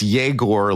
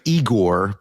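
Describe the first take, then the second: First: The name begins with a "yeh" sound. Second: The name begins with an "ee" sound. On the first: This is how the name is really said. The speaker calls it right. "it's Yegor" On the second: This is how the spelling looks. The speaker calls it wrong. "it looks like Igor"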